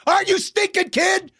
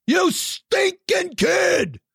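First: High cracking outraged cry; mock outrage. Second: High cracking shout; mock outraged shout. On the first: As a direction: squeal it in fake despair. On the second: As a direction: yell it in fake despair.

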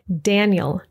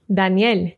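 First: Daniel as DAN-yul, stressed first; English pronunciation. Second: Daniel as dah-NYEL, stressed last; Spanish pronunciation. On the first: Teacher contrasting names between languages, English Daniel. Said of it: "followed by the English pronunciation". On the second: Teacher contrasting names between languages, Spanish Daniel. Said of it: "I'll read the Spanish pronunciation first". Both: Shown as a demonstration.

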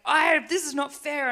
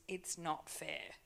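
First: Loud, high protest near tears; furious outburst. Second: Soft, slow, hushed words set aside; quiet letting go. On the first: Retold or imitated. To someone in their office, a furious loud protest. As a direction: shout it out like it's unjust. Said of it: "I got all angry and upset and furious". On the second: Shown as a demonstration. To the church, a quiet slow refusal of self-pity. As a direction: say it softly, refusing it. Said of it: "I'm not gonna use the words".

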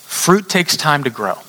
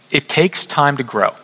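First: "Fruit takes time to grow" slowed, each word weighed; slow emphatic repeat. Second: Said in the usual way. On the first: Shown as a demonstration.

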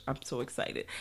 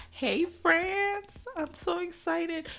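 First: Said in the usual way. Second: Much higher, slow thrilled "Hey, France, I'm so excited."; excited squeal. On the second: Real, not acted. Greeting French listeners with a high excited squeal.

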